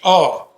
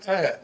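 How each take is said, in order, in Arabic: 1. صوت ممدود ينتهي بصوت 'ah' مهموس. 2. صوت قصير وواضح، وقفة حنجرية. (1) "مش آه" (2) "الهمزة في القرآن آ"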